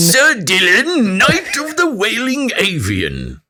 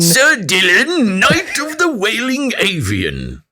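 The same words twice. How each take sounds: First: It is said in a put-on British knight voice. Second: The same.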